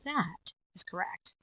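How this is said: The pitch goes up, then comes down.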